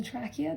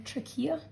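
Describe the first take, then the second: First: Trachea stressed up front, TRACK-ee-a; trachea, short a in a stressed first syllable; alternative pronunciation. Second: Trachea with the middle stressed, tra-KEE-a; trachea, long ee in a stressed second syllable; alternative pronunciation. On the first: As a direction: say trachea as TRAK-ee-uh. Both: Shown as a demonstration. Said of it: "depending on how you want to pronounce it".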